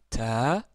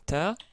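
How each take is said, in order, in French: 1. La voyelle est longue. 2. La voyelle est courte. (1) "Si on rajoute euh, la voyelle longue alif" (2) "nous avons vu la fatha"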